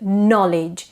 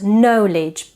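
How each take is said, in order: First: The first syllable does not sound like know. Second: The first syllable sounds like know. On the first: The speaker calls it right. "We say know, but knowledge" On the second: The speaker calls it wrong. "It's not knowledge"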